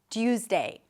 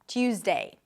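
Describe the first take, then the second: The two takes are said the same way.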